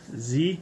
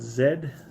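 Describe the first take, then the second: First: The letter is said as zee. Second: The letter is said as zed. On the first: "pronounce it for my American friends" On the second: "I think the rest of the world"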